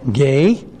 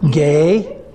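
First: The pitch rises on the name like a question. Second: The same.

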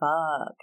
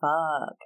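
First: It is said in a sad way. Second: The same.

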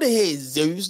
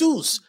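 First: It is said the English way, with a z sound. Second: It is said the Spanish way, without a z sound. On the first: The speaker calls it wrong. "It's not Jesus. There's no Z in Spanish" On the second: The speaker calls it right. "It's Jesus"

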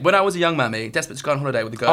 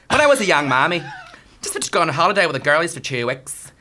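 First: It is read in the speaker's own accent. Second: It is read in a Belfast accent.

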